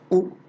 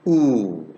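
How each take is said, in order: First: The vowel is held only briefly. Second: The vowel is held for a longer time. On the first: "This is short vowel" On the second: "This is long vowel"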